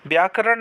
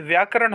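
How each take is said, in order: First: व्याकरण as "byaa-karan"; wrong b sound. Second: व्याकरण as "vyaa-karan"; correct v sound. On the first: Teacher showing students the mistake, b substituted. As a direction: start व्याकरण with by. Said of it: "नहीं". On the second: Teacher giving students the right form, clear v. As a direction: start व्याकरण with vy. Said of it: "होगा". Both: Shown as a demonstration.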